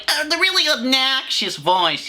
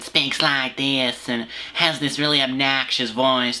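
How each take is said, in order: First: High-pitched mock obnoxious woman. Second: Lightly mimicked obnoxious woman, slow. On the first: Host showing the rom-com voice he hates, obnoxious imitation. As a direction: push way up high into an exaggerated annoying voice. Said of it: "that really annoying fucking voice". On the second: Host mocking a woman in the video, obnoxious voice. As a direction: imitate her annoying voice, drawing the words out.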